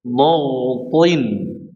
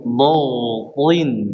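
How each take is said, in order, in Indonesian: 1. Konsonan pertama terdengar berat dan tebal. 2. Konsonan pertama terdengar berat dan tebal.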